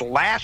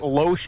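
First: The name is said as 'Lash'. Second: The name is said as 'Loesch'. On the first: The speaker calls it right. "It's Lash" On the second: The speaker calls it wrong. "We pronounced it Loesch"

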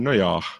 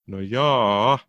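First: It sounds let down and disappointed. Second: It sounds hesitant and doubtful.

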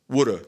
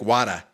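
First: It is said in a New York accent. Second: It is said in a Boston accent. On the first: "That would be New York" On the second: "And Boston would be like"

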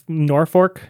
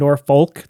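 First: The middle consonant is pronounced as an R. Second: The middle consonant is pronounced as an L. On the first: "the common dialect was just to kind of pronounce the L as an R" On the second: "they weren't doing Norfolk"

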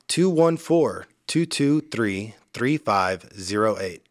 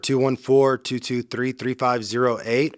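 First: The number is said slowly. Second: The number is said at normal pace.

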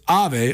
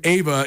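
First: The name is said as Ave. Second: The name is said as Ava. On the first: The speaker calls it right. "It's Ave Odegaard" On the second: The speaker calls it wrong. "We've been saying her name, Ava"

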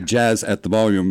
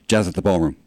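First: The words are said separately, with small breaks. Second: The words are run together as one.

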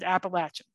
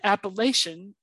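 First: It is said the way locals say it. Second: It is said the way outsiders say it. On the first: This is how people from the region say it. "if you go with the local pronunciation, we pronounce it" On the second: This is how people from elsewhere say it. "as pronounced by everybody else"

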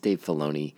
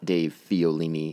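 First: The surname has three syllables, starting 'fih-low'. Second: The surname has four syllables, starting 'fee-oh'. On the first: The speaker calls it right. "It's Dave Filoni" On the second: The speaker calls it wrong. "I mispronounced the executive producer's name. It is not Dave Fiolini"

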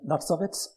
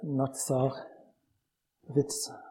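First: The two words are said fast, run together. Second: The two words are said slowly and separately.

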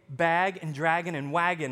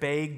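First: It is said in the speaker's non-Wisconsin accent. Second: It is said in a Wisconsin accent.

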